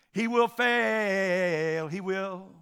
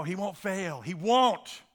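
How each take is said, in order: First: Sung out slowly on long held notes; sung, altered song lyric. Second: Said in the usual way. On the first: Acted. Preacher twisting the last song's words, sung slow and drawn-out. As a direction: sing it with FAIL stretched right out. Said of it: "changed those words around". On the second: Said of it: "That last song".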